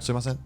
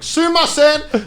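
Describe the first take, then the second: First: It is said softly, not shouted. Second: It is shouted at full volume.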